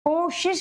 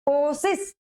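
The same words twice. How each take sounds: First: The word is said with sh sounds. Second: The word is said with plain s sounds. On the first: The speaker calls it right. "शुद्ध में क्या होता है, कोशिश होता है ... सिस नहीं है" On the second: The speaker calls it wrong. "अशुद्ध है कोशिश ... सिस है"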